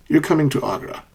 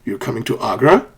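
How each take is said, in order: First: "You're coming to Agra." settling downward on "Agra"; a known fact, voice falling through "Agra"; falling intonation. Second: "You're coming to Agra?" climbing on "Agra"; rising intonation. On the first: Teacher contrasting two sentences for learners, falling intonation. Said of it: "falling intonation". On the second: Teacher contrasting two sentences for learners, rising intonation. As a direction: make it a question by lifting "Agra". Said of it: "asked with a rising intonation". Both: Shown as a demonstration.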